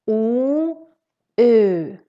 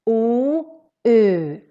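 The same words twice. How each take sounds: No difference in how they are said.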